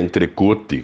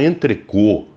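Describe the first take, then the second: First: It is read as spelled, Portuguese-style. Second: The final t sound is dropped. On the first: The speaker calls it right. "ou você fala entrecote, que é como se escreve" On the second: The speaker calls it wrong. "não fala entrecô. Não existe a pronúncia entrecô"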